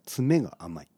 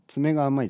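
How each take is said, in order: First: Tsume has the pitch pattern of the word finishing. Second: Tsume has the pitch pattern of the word claw. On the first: The finishing touch is lacking. The speaker calls it right. "ちょっと微妙に発音が違いますね" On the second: It refers to a claw. The speaker calls it wrong. "この爪が甘いじゃなくて"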